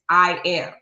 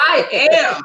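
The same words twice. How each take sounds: First: It is said at a normal, softer volume. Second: It is said more loudly and strongly.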